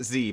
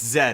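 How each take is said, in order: First: The letter is said as zee. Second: The letter is said as zed. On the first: This is how the speaker usually says it. "Normally I pronounce it Z" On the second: This is how the anime itself says it. "it's Zed"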